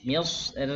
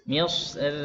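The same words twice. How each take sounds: First: The r is pronounced light and thin. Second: The same.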